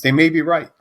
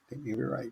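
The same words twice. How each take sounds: First: Loud, high admission; emphatic concession. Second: Much softer, raised-pitch aside; quiet concession. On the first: Emphatic concession, then repeated low. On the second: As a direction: concede it again under your voice. Same concession repeated under breath. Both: Real, not acted.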